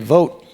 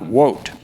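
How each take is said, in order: First: It is said with a Middle American accent. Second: It is said with an Indian accent. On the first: The speaker calls it right. "Say vote" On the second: The speaker calls it wrong. "not wote"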